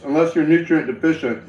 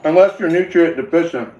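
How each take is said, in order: First: Said in the usual way. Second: Talking through a mouthful of food; words muffled by chewing; mouth full. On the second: Real, not acted. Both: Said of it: "I'm sorry, that was so gross".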